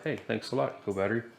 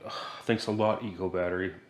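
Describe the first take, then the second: First: It sounds pleased and genuinely grateful. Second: It sounds annoyed and sarcastic.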